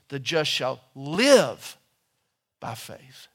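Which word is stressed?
live. The stress is on the word live.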